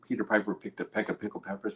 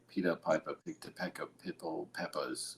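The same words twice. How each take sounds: First: It is said in the speaker's ordinary accent. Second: It is said in an imitated Barbadian accent.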